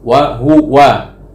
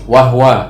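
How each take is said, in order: First: The h is followed by a full vowel. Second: The h is followed directly by the w. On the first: "Ya kita baca wahua kan gitu kan, semuanya jelas" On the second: "disukunkan huruf pertama domirnya"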